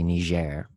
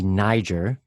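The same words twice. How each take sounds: First: It is pronounced the French way. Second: It is pronounced the English way. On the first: It refers to the country. "since it's a francophone country, it's usually Niger" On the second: It refers to the river region. "usually it's pronounced with the kind of Anglophonic pronunciation"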